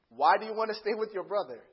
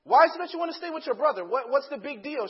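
First: Slightly reined-in acted dad, still louder; measured insistence. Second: Fast, high, loud acted demand; heated exasperation. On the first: Dad asking daughter about her brother, controlled insistence. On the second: Dad pressing daughter about her brother, rapid exasperated outburst. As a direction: rush the question out, worked up.

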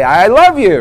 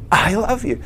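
First: Louder, higher, forced-out retold confession; struggling to say it. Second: High-pitched, imitated tearful release; retold tearful confession. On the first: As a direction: push the words out with mock effort. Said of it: "and I tried to say". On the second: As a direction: let it out as if choked with tears. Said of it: "I've got tears coming down my face".

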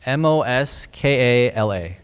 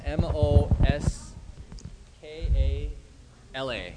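First: Slow spelling at full voice; repeated spelling. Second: Soft letters, fading away at the end; quiet spelling. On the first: Repeating the name for a listener who missed it, slowly. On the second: Speaker spells the preacher's name for listeners, quietly. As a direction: slowly spell it out, dropping the volume. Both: Real, not acted. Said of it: "Say that again".

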